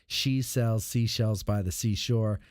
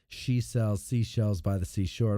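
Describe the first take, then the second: First: The S sounds are clear and only lightly reduced. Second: The S sounds are heavily dulled, almost like a lisp.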